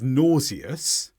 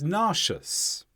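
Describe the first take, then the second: First: It is said in a British English pronunciation. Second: It is said in an American English pronunciation. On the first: "the British English version" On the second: "the American version"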